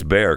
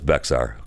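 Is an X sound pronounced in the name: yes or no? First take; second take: no; yes. First: The name is said with no X sound. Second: The name is said with an X sound. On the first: This is how locals say the name. "I think that's how they pronounce it" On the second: The name is said as it is spelled. "But it's spelled with an X, so it's Bexar"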